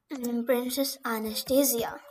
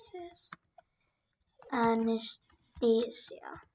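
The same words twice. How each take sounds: First: Said in the usual way. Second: Whispered, drawn out slowly. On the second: Shown as a demonstration. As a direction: breathe the name slowly while typing. Repeating the name while typing.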